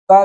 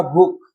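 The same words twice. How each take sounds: First: भूखा with unaspirated sounds; wrong form. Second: Said in the usual way. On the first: Shown as a demonstration. Teacher showing a wrong form, unaspirated भूखा. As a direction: drop the puffs from भूखा. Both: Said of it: "नहीं होगा".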